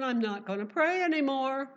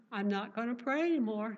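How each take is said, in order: First: Louder, PRAY pushed up high; hammed-up Daniel giving up on prayer; a preacher mocking a frightened Daniel, louder and high; mock panic. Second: Said in the usual way. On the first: Preacher voices Daniel's imagined fear.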